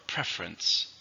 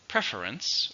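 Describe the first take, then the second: First: Slow "preference" in two syllables, PREF-rence. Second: Slow "Preference" in three syllables, PREF-er-ence. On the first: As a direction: drop the middle vowel in "preference". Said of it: "when I said it, there's two". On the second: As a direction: sound the middle vowel in "Preference". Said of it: "you could also say preference". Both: Shown as a demonstration.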